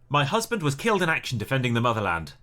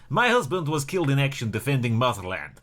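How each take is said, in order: First: It is said in the speaker's normal accent. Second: It is said in a put-on Russian accent. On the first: The speaker calls it wrong. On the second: The speaker calls it right.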